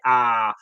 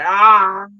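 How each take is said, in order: First: Said in the usual way. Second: Loud, high groan of pain. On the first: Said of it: "lean back and say". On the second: Pretend. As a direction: let out a loud anguished ah. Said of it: "more appropriate to say".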